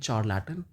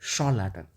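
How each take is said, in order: First: The word begins with a ch sound. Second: The word begins with a sh sound. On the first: The speaker calls it wrong. "ना तो आप इसको बोलेंगे चार लैटन" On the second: The speaker calls it right. "इसको आप बोलेंगे शॉल लैटन"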